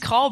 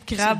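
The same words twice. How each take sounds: First: The word is said with the islanders' pronunciation. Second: The word is said with the speakers' own pronunciation. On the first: This is how people on the island say it. The speaker calls it right. "Ils disent crabe à cette île" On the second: This is how the speakers' own community says it. The speaker calls it wrong. "Il y a juste nous autres qui disent mal"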